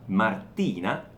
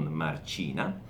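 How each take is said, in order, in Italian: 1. La t è una t dura. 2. La t diventa un suono ch. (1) "Martina e non Marcina" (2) "occhio al suono della T, suono duro"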